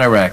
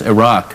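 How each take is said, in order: First: The name is said the anglicized American way. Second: The name is said the native-like way. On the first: The speaker calls it wrong. "we never even pronounced the country right. I mean, we called it Iraq. It's not Iraq" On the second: The speaker calls it right. "It's Iraq"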